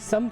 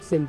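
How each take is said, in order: First: The first vowel sounds like 'a'. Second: The first vowel sounds like 'i'. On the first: The speaker calls it right. "समत होता है" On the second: The speaker calls it wrong. "कहते कहते लोग सिमत"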